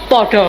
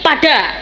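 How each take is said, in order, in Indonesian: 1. Vokalnya diucapkan sebagai o bulat. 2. Vokalnya diucapkan sebagai a terbuka. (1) "teng Surabaya padha" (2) "Mriki pada"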